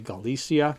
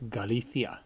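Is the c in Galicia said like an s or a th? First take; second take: s; th. First: The c is said like an s. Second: The c is said like a th. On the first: This is how English speakers may say it. "you may say" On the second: This is how people from Spain say it. "That C before an I is pronounced like a T H. ... Spaniards from Spain, they say"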